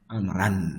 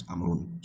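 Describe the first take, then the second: First: "amran" ending in -an; changed case ending. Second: "amrun" ending in -un, said softer; original case ending. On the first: Teacher showing what layta does, "amran" ending in -an. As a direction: say "amran" with an a in the last syllable. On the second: Teacher ruling out the initial form, soft "amrun" ending in -un. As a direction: say "amrun" softly with a u in the last syllable. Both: Shown as a demonstration. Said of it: "not amrun".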